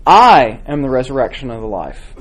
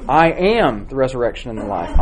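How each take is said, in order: First: I am the resurrection and the life, with I punched louder; stress on I. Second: I am the resurrection and the life, with am pushed out; stress on AM. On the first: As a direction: lean hard on the first word I. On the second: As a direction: lean on am, keep I light. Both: Shown as a demonstration. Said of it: "Try repeating and emphasizing a different word".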